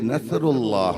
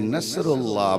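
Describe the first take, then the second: First: The middle consonant is a 'th' sound. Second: The middle consonant is a plain 's' sound. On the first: The meaning changes. "से से पढ़ेंगे" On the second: The meaning changes into something terrible. "छोटी सीन से पढ़ेंगे"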